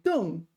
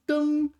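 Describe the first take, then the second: First: The syllable is said with a falling tone. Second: The syllable is said with a high level tone. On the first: "fourth tone" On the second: "first tone"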